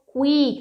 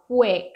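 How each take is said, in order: First: "quick" with a long, tense ee, like "kweek"; pronúncia errada de quick. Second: "quick" with a short, closed i, close to "kwek"; i fechado em quick. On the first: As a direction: stretch the vowel of "quick" into a sharp ee. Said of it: "Não é quick, não é quick. É um izinho fechado". ("quick" com i longo e aberto, tipo "cuíque") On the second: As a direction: keep the vowel of "quick" short and lax. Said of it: "É um izinho fechado". ("quick" com izinho fechado e curto) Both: Shown as a demonstration.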